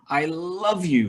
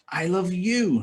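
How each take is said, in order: First: The word 'love' carries the main stress. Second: The word 'you' carries the main stress. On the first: The feeling is strong. "very much" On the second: This person is loved, not another one. "not her"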